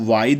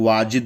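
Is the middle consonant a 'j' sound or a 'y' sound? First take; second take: y sound; j sound. First: The middle consonant is a 'y' sound. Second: The middle consonant is a 'j' sound. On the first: The speaker calls it right. "वाइद सही है" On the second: The speaker calls it wrong. "वाजिद एक्यूरेट सही नहीं है"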